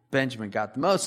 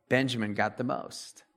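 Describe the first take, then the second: First: Said in the usual way. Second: Soft aside. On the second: Shown as a demonstration. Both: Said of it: "repeated for emphasis".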